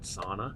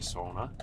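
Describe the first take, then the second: First: Sauna is pronounced the common English way. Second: Sauna is pronounced the Finnish way. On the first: The speaker calls it wrong. "not sauna" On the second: The speaker calls it right. "the proper way to say it is actually sauna"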